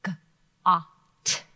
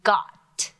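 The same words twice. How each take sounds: First: "G-ot." split into G and a drawn-out ot; sounded out. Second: Said in the usual way. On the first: Shown as a demonstration. Teacher sounds out a word for students. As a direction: sound out "G-ot." slowly, sound by sound. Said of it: "look at this first word". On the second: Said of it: "let's look at this first word".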